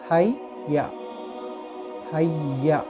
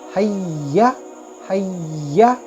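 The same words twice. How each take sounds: First: The doubled y is said plainly, without emphasis. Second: The doubled y is pressed and said louder. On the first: The speaker calls it wrong. "अगर आप पहले कैसे पढ़े हैया हैया, ऐसे नहीं" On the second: The speaker calls it right. "इस तरीके से उसको हाईलाइट करना है, उसको थोड़ा बुलंद करके पढ़ना है"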